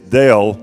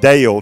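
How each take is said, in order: First: The name has a short 'eh' vowel. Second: The name has a long 'ay' vowel. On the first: The speaker calls it right. "it's Dale, like the computer" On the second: The speaker calls it wrong. "It's not Dale, D-A-L-E"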